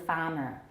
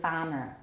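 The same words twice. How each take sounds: First: One of the R sounds is dropped. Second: One of the R sounds is dropped.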